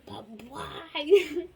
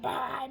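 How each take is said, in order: First: It is said in a spooky voice. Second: It is said in a normal voice.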